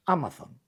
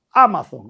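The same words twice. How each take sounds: First: Said in the usual way. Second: "Amazon" with the first A stressed and louder; "Amazon" said firmly with the accent on the A. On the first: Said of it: "con acento en la A". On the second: Shown as a demonstration. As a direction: hit the opening A of "Amazon". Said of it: "con acento en la A, se dice".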